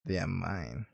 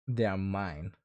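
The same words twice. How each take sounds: First: Even lower and much softer, almost breathed; possessive whisper-low. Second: Low, quiet possessive claim; a hint of jealous ownership, voice dropped low. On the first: Pretend. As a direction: make "mine" a dark, hushed claim.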